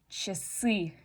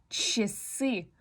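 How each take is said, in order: Both takes have the same delivery.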